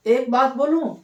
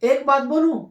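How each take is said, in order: Both takes have the same delivery.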